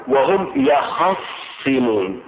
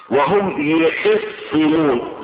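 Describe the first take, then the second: First: يخصمون with an "a" after both ya and kha: yakhassimun; fatha reading. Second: يخصمون with an "i" under both ya and kha: yikhissimun; kasra reading. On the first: Teacher showing listeners the variant reading with fatha, slow "yakhassimun". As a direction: draw out وهم يخصمون slowly as "wa-hum yakhassimun", doubled s. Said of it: "بالفتح". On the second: Teacher showing listeners the variant reading with kasra, slow "yikhissimun". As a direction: slowly demonstrate وهم يخصمون as "wa-hum yikhissimun", doubled s. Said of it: "بكسر الياء والخاء". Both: Shown as a demonstration.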